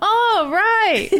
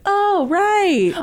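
First: Laughing echo of the imitation; oh right echo. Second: Lightly voiced friend; mock realization. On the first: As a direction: repeat the line back, laughing. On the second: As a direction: imitate her sudden realization. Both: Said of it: "you're like".

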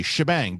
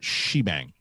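First: "Shebang" with a short "shuh" first syllable; correct pronunciation demo. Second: "shebang" with a long "shee" first syllable; wrong pronunciation demo. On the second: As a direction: say "shebang" slowly as SHEE-bang. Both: Shown as a demonstration. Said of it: "it is not shebang".

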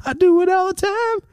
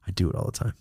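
First: I do it all the time in a squeaky falsetto; squeaky high. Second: Said in the usual way. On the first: Shown as a demonstration. Admitting a car habit to the audience, squeaky falsetto.

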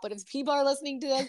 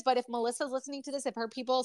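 First: Said in the usual way. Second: Talking while gulping; swallowing. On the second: Real, not acted. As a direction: speak through a swallow. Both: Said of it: "sorry, just gulp".

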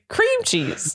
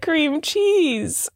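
First: "cream cheese" with CREAM prominent, CHEESE falling; stress on CREAM. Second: "cream cheese" with CHEESE higher and prominent; stress on CHEESE. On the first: Retold or imitated. Mimicking the spouse's wrong emphasis, stress on CREAM. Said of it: "And you're saying". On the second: Shown as a demonstration. Showing a spouse one's own way, stress on CHEESE. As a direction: lean on "cheese", letting it fall. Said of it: "what are you saying?".

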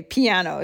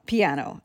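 First: Piano said the English way, pee-AN-oh; English pronunciation. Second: Piano said the Italian way, pee-AH-no; Italian pronunciation. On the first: Host contrasting the English word for the instrument, English pronunciation. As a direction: give piano its flat English a. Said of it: "the English pronunciation". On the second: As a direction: give Piano a clear Italian ah. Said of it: "I should say". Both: Shown as a demonstration.

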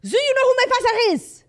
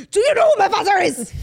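First: Very high, loud outburst in a put-on French accent; hammed-up French-accented indignation; mock French accent. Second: Aggressive, high shout in a put-on Austrian accent; hammed-up Austrian-accented tantrum; mock Austrian accent. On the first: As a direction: wail it like an entitled drunk Frenchman. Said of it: "He's French". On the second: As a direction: bellow it like an entitled drunk Austrian. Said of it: "I wanna say they're Au-, Aus-, Austrian".

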